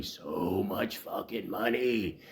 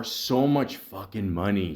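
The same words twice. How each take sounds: First: Slow, hushed disbelief; drawn-out repeat. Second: Said in the usual way. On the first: Real, not acted. Podcaster lamenting what the bartender costs the bar, slow and soft. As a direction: softly stretch out every word, dragging it slowly. Repeats phrase slowly for effect.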